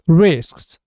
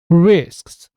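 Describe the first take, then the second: First: All three final consonants s, k, s are pronounced. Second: All three final consonants s, k, s are pronounced.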